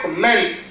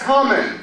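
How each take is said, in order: First: The stress is on the second syllable. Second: The stress is on the first syllable. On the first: It is used as a verb. "This is verb" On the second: It is used as a noun. "that's a nice comment"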